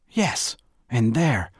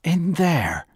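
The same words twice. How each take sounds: First: "in there" slow and emphatic; measured, insistent "in there"; firm confirmation. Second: "In there" high and loud, falling; loud, high-pitched "In there"; incredulous question. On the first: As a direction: confirm "in there" deliberately, falling at the end. Firm answer to the challenge. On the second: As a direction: throw "In there" back as a disbelieving challenge. Disbelieving challenge to Bernice's answer. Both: Acted.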